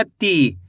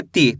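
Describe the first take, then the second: First: "ती" with the ई drawn out too long; over-stretched vowel. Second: "ती" with a short, unstretched ई; lower, quick "ती", the ee barely held; short vowel. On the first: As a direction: show the wrong way, stretching the vowel in "ती". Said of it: "ज़्यादा खींच के नहीं पढ़ना". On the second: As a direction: say "ती" briefly, letting the pitch drop. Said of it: "छोटी ई की मात्रा का उच्चारण कम खींच के करना है". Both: Shown as a demonstration.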